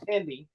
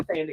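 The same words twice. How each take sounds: First: "Tandy" begun with a plain T; Tandy with hard T. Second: "Thandie" begun with a soft TH. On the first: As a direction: say "Tandy" with no TH sound. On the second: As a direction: say "Thandie" with the TH as in thin. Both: Shown as a demonstration. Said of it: "It's not Thandie, it's Tandy".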